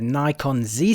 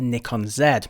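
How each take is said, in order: First: The letter Z gets its North American pronunciation. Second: The letter Z gets its European pronunciation. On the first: "In North America it's known as the Nikon Z system" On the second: "as I'm European I'll be pronouncing it as the Nikon Z"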